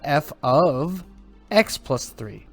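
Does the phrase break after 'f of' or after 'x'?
after f of. The phrase breaks after f of, before x. Three is added to the input before the function. "Slightly different intonation"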